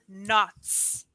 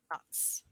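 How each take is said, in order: First: Said in the usual way. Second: Whispered, much softer repeat of the word; Knots. said again as a soft whisper. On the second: Shown as a demonstration.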